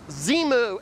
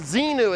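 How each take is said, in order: First: The middle consonant is an m sound. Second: The middle consonant is an n sound. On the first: The speaker calls it right. "it's Zemu. He even spelled it X E M U" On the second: The speaker calls it wrong. "it isn't Xenu"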